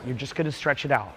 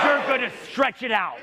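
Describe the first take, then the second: First: It is said in a relaxed, casual way. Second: It is said in an intense, determined way.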